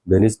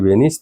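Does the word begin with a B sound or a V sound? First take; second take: B sound; V sound. First: The word begins with a B sound. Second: The word begins with a V sound. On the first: The speaker calls it wrong. "बेनिस नहीं" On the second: The speaker calls it right.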